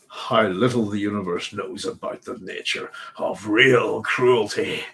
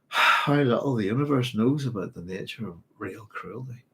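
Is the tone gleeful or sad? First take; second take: gleeful; sad. First: It is said in a gleeful, sinister tone. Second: It is said in a sad, grieving tone. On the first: The speaker relishes the cruelty. "with the chuckle and the rubbing of the hands" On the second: The speaker mourns a loss. "You could read it sad"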